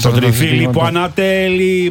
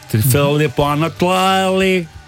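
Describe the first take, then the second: First: It is said in plain native Greek. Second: It is said with a heavy foreign accent.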